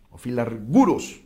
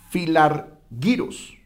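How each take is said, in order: First: Filarguros said with -gu- as a hard /gu/; alternate pronunciation. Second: Filargiros said slowly with -gi- as /xi/; first pronunciation. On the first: Teacher gives class the variant: filarguros, hard g. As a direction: offer filarguros with a hard g as the other reading. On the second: Teacher gives class the Greek word: filargiros, drawn out. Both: Shown as a demonstration. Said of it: "como algunos también lo mencionan y lo pronuncian".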